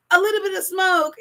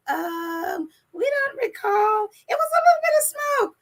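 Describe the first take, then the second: First: Said in the usual way. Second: High-pitched mocking imitation of excuse-makers; put-on high voice, sending them up. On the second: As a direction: squeak out a feeble excuse, mockingly. Mimicking the royals' feeble excuse.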